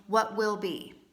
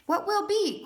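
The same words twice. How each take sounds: First: Said in the usual way. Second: "What will be?" pitched much higher, as an open question. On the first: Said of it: "in this place of going". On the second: Acted. Reader voicing the collective wondering about June, questioning. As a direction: lift "What will be?" high with a big question mark. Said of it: "Question mark".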